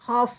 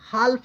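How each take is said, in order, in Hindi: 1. L की आवाज़ F से पहले नहीं बोली जाती है। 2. L की आवाज़ F से पहले बोली जाती है। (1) "हाफ पढ़ेंगे" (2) "यल यहाँ पे साइलेंट है, हाल्फ नहीं पढ़ेंगे"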